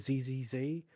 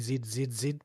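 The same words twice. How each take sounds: First: The letters are said the American way, zee. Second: The letters are said the British way, zed.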